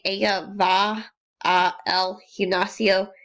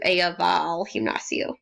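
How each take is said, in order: First: The words 'a' and 'el' are two separate syllables. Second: The words 'a' and 'el' blend into one syllable. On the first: The speaker calls it wrong. "instead of saying" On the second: The speaker calls it right. "blended together into"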